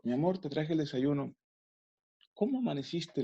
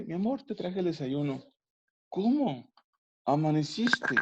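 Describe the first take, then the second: First: Soft, sweet newlywed wife asking gently; tender question. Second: ¡Cómo amaneciste! jumps high in mock dismay; shocked exclamation. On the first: Acted. Newlywed wife to husband at breakfast, a soft tender question. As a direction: ask lovingly, the morning after the wedding. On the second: Wife twenty years later sees her husband, a mock shocked exclamation. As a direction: gasp it out at how he looks. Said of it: "una interrogativa y una exclamativa".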